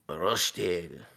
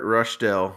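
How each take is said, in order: First: It is said in a put-on foreign accent. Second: It is said in the speaker's normal accent.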